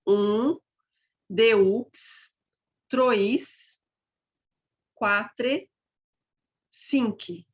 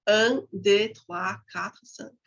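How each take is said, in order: First: "deux", "trois", "quatre" with every written letter sounded; "deux" as de-ups, "trois" as tro-is, "cinq" as sinki; French read as spelled. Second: "trois" as twa, "deux" with silent x; "Un, deux, trois" said the French way, not as spelled; spoken French pronunciation. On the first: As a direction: count in French word by word, voicing the silent endings of "deux" and "cinq". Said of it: "do jeito que se escreve". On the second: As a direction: count in French with the endings of "quatre" and "cinq" softened or silent. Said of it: "Agora eu vou falar".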